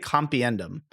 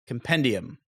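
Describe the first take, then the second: First: The second syllable has an extra 'ee' sound. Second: The second syllable is a plain 'pen' sound. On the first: The speaker calls it wrong. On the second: The speaker calls it right.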